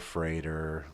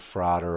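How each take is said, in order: First: The first vowel is the 'ay' of day. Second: The first vowel is the open 'ah' of father.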